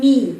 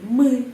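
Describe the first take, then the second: First: The vowel is a front 'ee' sound. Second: The vowel is a central 'uh'-like sound. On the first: The speaker calls it wrong. "bukan mi" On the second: The speaker calls it right. "juga E pepet"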